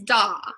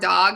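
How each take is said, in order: First: The final consonant is dropped. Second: The final consonant is pronounced.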